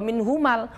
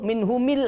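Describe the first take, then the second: First: The mim is followed by an a vowel. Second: The mim is followed by an i vowel. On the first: "tidak boleh" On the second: "tidak boleh"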